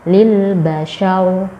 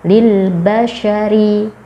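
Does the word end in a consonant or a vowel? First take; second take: consonant; vowel. First: The final vowel is dropped, ending on r. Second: The word ends with a short final vowel.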